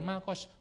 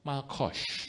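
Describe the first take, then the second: First: The word is said with a plain, soft sound. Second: The word is said with a harsh, throaty sound. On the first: The speaker calls it wrong. "Bukan malkos" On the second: The speaker calls it right. "harus makan kerupuk lima"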